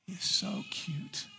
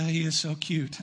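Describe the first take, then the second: First: Very high and hushed, drawn out slowly. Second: Said in the usual way. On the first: Real, not acted. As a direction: coo it to the newborn like a delighted grandparent. Cooing at a newborn in church.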